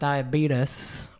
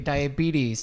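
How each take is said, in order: First: The word ends with a 'tus' sound. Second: The word ends with a 'teez' sound. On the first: The speaker calls it wrong. "not diabetes, or the beets or the sugars, like some people like to say" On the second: The speaker calls it right. "We also pronounced it correctly"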